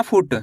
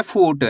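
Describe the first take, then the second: First: फुट with a short, quick "u"; short vowel. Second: फूट with a long, stretched "oo"; drawn-out vowel. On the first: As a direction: cut the उ in फुट short before the ट. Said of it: "ऐसे नहीं पढ़ना". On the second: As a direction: stretch the ऊ in फूट before the final ट. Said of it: "खींच के पढ़ना है". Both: Shown as a demonstration.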